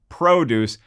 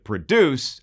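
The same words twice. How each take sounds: First: The stress is on the first syllable. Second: The stress is on the second syllable. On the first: Fresh fruit and vegetables. The speaker calls it wrong. "I read that like it was about fresh veggies" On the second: To oversee the making of films. The speaker calls it right. "I actually should have pronounced it produce, as in the films"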